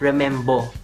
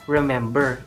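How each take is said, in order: First: The word ends with an open o vowel. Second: The word ends with an r-colored vowel. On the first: "It will be read as remembo" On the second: "It will not be read as remember"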